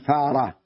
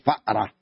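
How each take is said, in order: First: It is said without a glottal stop. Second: It is said with a glottal stop. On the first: This is the Meccan way of saying it. "هناك يقولون فارة" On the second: This is the Medinan way of saying it. "وهؤلاء يقولون فأرة، لاحظتم؟ يحمزون"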